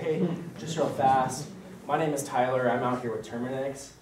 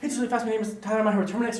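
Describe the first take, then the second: First: It is said slowly, calmly. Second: It is said quickly, rushed.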